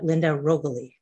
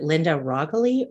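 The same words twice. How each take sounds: First: "Rogoli" opening with a long "oh", ROHG-uh-lee; "Rogoli" tried out as ROH-guh-lee; alternative pronunciation. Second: "Rogoli" opening with an "ah" sound, RAHG-lee; "Rogoli" tried out as RAHG-lee; first pronunciation option. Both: Shown as a demonstration. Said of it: "I'm not a hundred percent sure".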